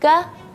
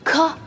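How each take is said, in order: First: The consonant has only a very soft breathy hiss. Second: The consonant has a strong, exaggerated breathy hiss. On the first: The speaker calls it right. "Tapi ka, ka" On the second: The speaker calls it wrong. "jangan berlebihan. Jangan ka, ka, enggak"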